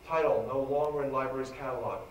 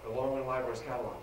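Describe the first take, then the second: First: Said in the usual way. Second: Quicker and softer, trailing off; trailing echo of the phrase; fast, fading repeat. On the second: Shown as a demonstration. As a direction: let "no longer in library's catalog" fade quickly. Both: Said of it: "repeated for emphasis".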